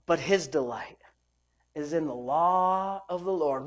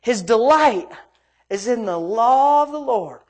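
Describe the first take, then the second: First: Low, soft, slow verse; hushed, unhurried Bible reading; subdued scripture reading. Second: "delight" raised and punched; "law" drawn out with preacher's weight; emphatic scripture reading. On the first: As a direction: read it quietly and deliberately. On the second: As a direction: hit "delight" hard, then stretch out "law". Repeats the verse with emphasis. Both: Real, not acted.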